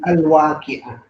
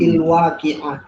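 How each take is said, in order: First: The word begins with an a vowel. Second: The word begins with an i vowel. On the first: The speaker calls it right. "tapi al-waqi'ah" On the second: The speaker calls it wrong. "atau il-waqi'ah"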